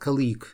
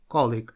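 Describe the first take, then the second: First: The stress is on the second syllable. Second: The stress is on the first syllable. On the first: The speaker calls it wrong. "его очень часто путают, говорят colleague. Нет, это такого варианта нет" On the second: The speaker calls it right. "Всегда ударение на первый слог"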